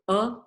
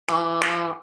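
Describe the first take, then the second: First: The vowel is held only briefly. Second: The vowel is held for a longer time. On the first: "short breath" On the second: "longer breath"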